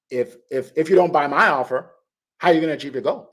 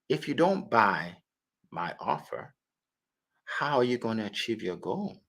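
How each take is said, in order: First: The question sounds challenging and insulting. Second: The question sounds curious and open. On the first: The asker is putting the listener down. The speaker calls it wrong. "don't say it like that. That's insulting" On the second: The asker cares and wants to help. The speaker calls it right. "You say it in a curious tone"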